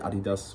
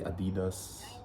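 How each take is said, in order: First: The vowels are said short and plain. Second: The vowels are drawn out and lengthened. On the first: "we don't say Adidas" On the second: "we lengthen the word, like ... we say Adidas"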